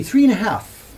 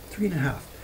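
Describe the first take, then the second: First: Louder, higher, with a push on three; emphatic. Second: Said in the usual way. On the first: Real, not acted. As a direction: hit three and a half hard in amazement. Stressing his young age in disbelief.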